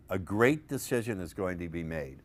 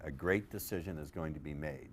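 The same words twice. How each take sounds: First: "great" punched, phrase set apart; stressed great decision. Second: "A great decision" dropped lower and softer; softer low embedded take. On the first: Coach to seminar, underlining the buried command. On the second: Coach to seminar, dropping the command in quietly. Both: Shown as a demonstration. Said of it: "Underline that".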